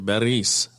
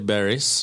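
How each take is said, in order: First: The R is rolled. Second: The R is said plainly, not rolled. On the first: The speaker calls it right. "so you usually roll the R's. You say Beris" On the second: The speaker calls it wrong. "people say Barris, uh, right? Because that's the obvious thing to say"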